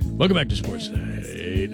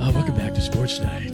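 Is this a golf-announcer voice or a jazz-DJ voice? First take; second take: jazz DJ; golf announcer. First: It is said in a smooth jazz-DJ voice. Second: It is said in a hushed golf-announcer voice.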